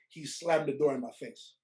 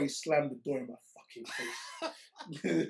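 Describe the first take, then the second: First: It is said at normal speed. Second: It is said slowly.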